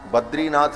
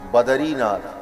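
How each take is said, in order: First: The d and r run together without a vowel. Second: A short vowel separates the d and r. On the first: The speaker calls it wrong. "बद्रीनाथ नहीं" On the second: The speaker calls it right.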